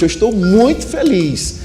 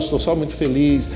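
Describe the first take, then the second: First: It is lively, with rhythm, pauses and intonation. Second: It is flat, without much rhythm or intonation. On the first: The speaker shows real excitement. The speaker calls it right. "você demonstra muito mais entusiasmo" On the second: The speaker shows little interest. The speaker calls it wrong. "você não demonstra tanto interesse"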